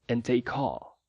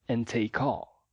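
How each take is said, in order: No difference in how they are said.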